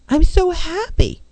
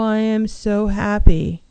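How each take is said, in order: First: It is said with lively energy. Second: It is said flatly, without energy.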